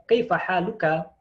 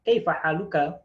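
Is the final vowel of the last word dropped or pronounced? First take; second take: pronounced; pronounced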